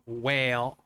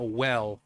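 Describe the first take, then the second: First: It is said in a Southern accent. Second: It is said in a neutral accent. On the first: "but well" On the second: "not a well"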